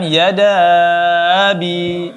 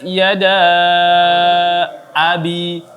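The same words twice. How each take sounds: First: The two words run together as one sound. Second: The two words are separated with a clear A. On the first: The speaker calls it wrong. "jangan yada abi" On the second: The speaker calls it right. "Tetapi dipisahkan. Tabbat yada abi. A-nya dijelaskan lagi"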